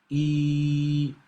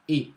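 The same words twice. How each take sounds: First: The vowel is drawn out longer. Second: The vowel is held only briefly. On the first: "the long vowel sound" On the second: "the short vowel sound"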